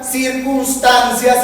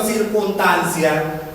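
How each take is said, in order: First: "circunstancia" with a clear S, "circuns-tancia"; loud, drawn-out "circunstancia", keeping the S after N; S after N pronounced. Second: "circunstancia" without the middle S, as "circuntancia"; slow "circunstancia" with no S after the N; S after N dropped. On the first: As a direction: say "circunstancia" slowly, sounding the S in "cuns". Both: Shown as a demonstration. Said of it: "no pronunciar las eses que siguen a la N".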